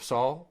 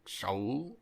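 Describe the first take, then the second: First: The name begins with a plain s sound. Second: The name begins with an sh sound.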